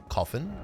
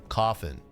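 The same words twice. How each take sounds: The two takes are said the same way.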